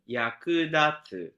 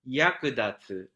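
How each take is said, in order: First: Low start, high second syllable, then low. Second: High first syllable, then low throughout. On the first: "low, high, low, low" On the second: "high, low, low, low"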